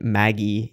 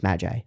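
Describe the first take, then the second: First: The word is said with a Japanese pronunciation. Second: The word is said with an English pronunciation. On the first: This is how it is said in Japanese. "They they they say it Maggie in Japanese" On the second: This is how the speaker chooses to say it. "but it's it's Magi"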